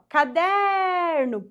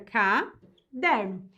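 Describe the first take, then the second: First: The word is called out, middle syllable stretched. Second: The word is split into separate syllables. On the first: "Se eu chamo a palavra, ó" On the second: "Se eu separo, fica"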